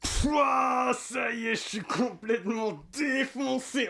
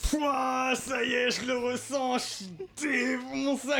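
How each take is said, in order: First: High, slow stoner voice, drawn out; stoned voice. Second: High, slow stoner drawl; stoned voice. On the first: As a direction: play it totally high, dragging the words. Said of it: "je vais vous montrer, genre, un petit exemple". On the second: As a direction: act totally high again, stretched out. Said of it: "Je peux continuer à faire ça pendant très longtemps". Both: Shown as a demonstration.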